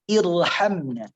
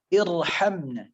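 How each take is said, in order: No difference in how they are said.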